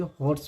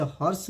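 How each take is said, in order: First: हॉर्स with a rounded "o", "hors"; correct pronunciation. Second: हॉर्स with an open "aw" vowel; wrong pronunciation. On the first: Teacher corrects students on reading हॉर्स, rounded "o". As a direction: say हॉर्स as "hoars". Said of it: "हॉर्स पढ़ेंगे". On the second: Teacher shows students the misreading of हॉर्स, open "aw". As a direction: say हॉर्स as "hawrs". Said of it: "इसे हॉर्स नहीं पढ़ेंगे". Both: Shown as a demonstration.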